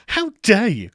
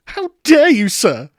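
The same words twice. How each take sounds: First: High, loud mock indignation; hammed-up How dare you, high and loud; mock outrage. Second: Much higher, much louder mock fury; How dare you shrieked high and very loud; hammed-up outraged shriek. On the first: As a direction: play the scandalised gentleman. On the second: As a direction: go over the top, scandalised. The outrage built up further.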